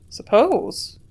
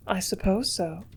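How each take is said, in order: First: A sharp, louder echo of her word; incredulous exclamation. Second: Said in the usual way. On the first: A narrator's reading. Man echoing the woman's evasive word, louder in disbelief. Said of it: "I exclaimed".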